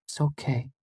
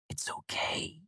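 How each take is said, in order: First: Soft and high, hushed comfort; gentle, hushed, higher girl's voice; quiet reassurance. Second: Whispered comfort, very faint; tender whisper; soft whisper. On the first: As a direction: soothe him quietly. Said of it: "she said quietly". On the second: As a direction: barely breathe it. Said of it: "Auri said softly". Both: A narrator's reading.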